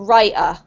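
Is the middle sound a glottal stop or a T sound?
glottal stop. The middle consonant is a glottal stop. "what we call a glottal stop"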